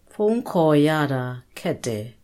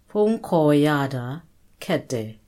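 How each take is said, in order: Both takes have the same delivery.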